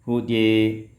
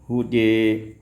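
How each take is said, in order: The two takes are said the same way.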